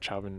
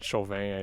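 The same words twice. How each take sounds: First: The name is said with an English pronunciation. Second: The name is said with a French pronunciation. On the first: "how they pronounce it" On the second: "is how we pronounce it in French"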